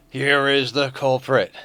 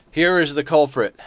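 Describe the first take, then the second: First: Slow, drawn-out announcer voice; dramatic reveal. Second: Louder, higher announcement; announcing the culprit. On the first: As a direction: unveil the culprit slowly like a show host. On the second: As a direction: present the cat to chat with a flourish. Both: Shown as a demonstration.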